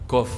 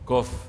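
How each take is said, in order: First: It starts with a voiceless k sound. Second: It starts with a voiced g sound. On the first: This is how the early Arabs read it. "Mereka zaman itu pakai kof. Kalau baca kof itu kof" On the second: This is how it is read in Hadramaut. "Kalau di Hadramut itu Kof itu dibaca dibaca gof"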